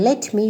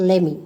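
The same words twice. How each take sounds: First: Said in the usual way. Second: "Lemme" with no t; shortened form. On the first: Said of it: "And for". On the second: Shown as a demonstration. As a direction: run the two words into "Lemme". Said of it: "you can say".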